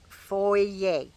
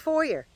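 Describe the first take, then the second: First: It is said the Canadian way. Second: It is said the American way.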